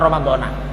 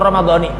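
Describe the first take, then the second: First: The word ends with an 'ah' vowel. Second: The word ends with an 'ee' vowel. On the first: The speaker calls it wrong. "bukan Ramadhana" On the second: The speaker calls it right. "yang betul Ramadhani"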